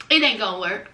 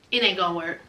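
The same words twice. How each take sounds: First: Much lower, dragging; gloomy resignation. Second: Much lower, softer, heavy; gloomy resignation. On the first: Heartbroken ex repeating it, lower and flat-voiced. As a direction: say it again low and defeated. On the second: Heartbroken ex giving up on Nicole, low and soft. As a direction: let it sink in low and soft. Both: Retold or imitated.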